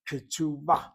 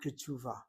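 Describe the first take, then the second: First: The middle consonant is a b sound. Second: The middle consonant is a v sound. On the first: The speaker calls it right. "It's a ba sound" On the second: The speaker calls it wrong. "not ketuvah"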